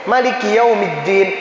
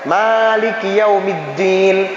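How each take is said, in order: First: The vowel after the m is kept short. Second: The vowel after the m is drawn out long. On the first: This follows another accepted reading tradition. "dibaca pendek" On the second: This follows one accepted reading tradition. "memang dibaca panjang"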